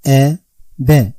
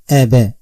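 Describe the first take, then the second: First: "A, B" as two separate syllables, clear pause between; teacher's isolated syllables "A" ... "B"; syllables apart. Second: "A, B" joined with no pause between; teacher linking "A, B" like one word; syllables in sequence. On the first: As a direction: say "A", stop, then "B" on its own. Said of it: "I pronounce the first syllable alone". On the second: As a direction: run "A" straight into "B". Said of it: "affected by their vowel points sequentially". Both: Shown as a demonstration.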